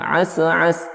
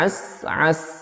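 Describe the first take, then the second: First: The first s is released with a bounce. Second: The first s is held before release. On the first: The speaker calls it wrong. "ada pantulan di sin yang bersukun tadi" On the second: The speaker calls it right. "tahan dulu jangan langsung dilepas"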